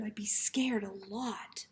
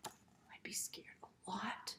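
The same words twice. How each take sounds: First: Said in the usual way. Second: Much softer slow whisper repeat. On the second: Shown as a demonstration. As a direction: hush it to let the idea sink in.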